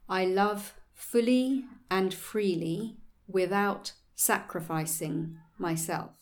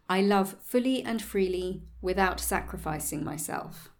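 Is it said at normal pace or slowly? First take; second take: slowly; normal pace. First: It is said more slowly. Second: It is said at a normal pace.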